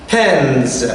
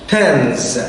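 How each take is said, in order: No difference in how they are said.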